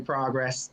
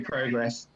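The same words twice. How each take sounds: First: The word has an American pronunciation. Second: The word has a British pronunciation. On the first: The speaker calls it wrong. "she would always say progress" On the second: The speaker calls it right. "the correct way, the, the British way"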